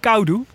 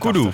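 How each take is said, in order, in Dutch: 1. De eerste klinker is een 'ow'-tweeklank. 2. De eerste klinker is een gewone 'oh'-klank. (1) "gewoon Kaudu" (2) "gesuggereerd werd dat je zijn naam niet uitspreekt als Kaudu, maar als Kodu"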